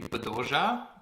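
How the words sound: The name is said with Spanish-style sounds.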